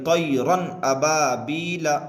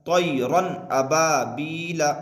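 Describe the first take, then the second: No difference in how they are said.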